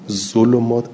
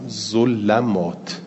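First: The L is followed by a u vowel. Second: The L is followed by an a vowel. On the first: This is the reading all main reciters agree on. "اجمع القراء على ذم اللام" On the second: This is a reading some reciters gave. "به فتح لام"

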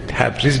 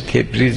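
First: The first syllable has an a vowel. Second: The first syllable has an e vowel. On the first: This is the everyday form people use now. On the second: This is the original form of the name.

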